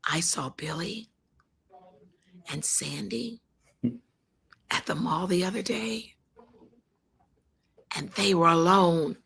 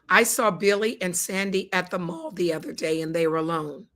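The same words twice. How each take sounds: First: It is said in a knowing, suggestive tone. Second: It is said in a plain, matter-of-fact tone. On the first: Something is going on between them. "But what if I said it like this" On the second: Nothing unusual happened. "Just those words and the tone, you're going to say, Linda, big deal"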